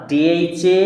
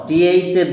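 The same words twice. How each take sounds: The two takes are said the same way.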